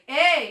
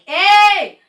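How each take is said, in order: First: It is said with energy at moderate volume. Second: It is shouted extra loud with full volume. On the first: "I can practice like" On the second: "I don't have to go like"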